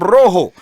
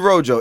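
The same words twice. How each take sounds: First: The first r is trilled, rolled strongly. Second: The first r is a plain, unrolled English r. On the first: This is how the name is really said. The speaker calls it right. "I'm Rojo" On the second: This is how others wrongly say the name. The speaker calls it wrong. "Please stop calling me Rojo"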